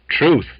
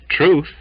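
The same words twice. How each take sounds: The two takes are said the same way.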